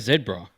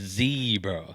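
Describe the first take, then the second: First: It is said the way Africans say it. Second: It is said the way Americans say it. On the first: "They go zebra" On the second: "America's the only one that says zebra"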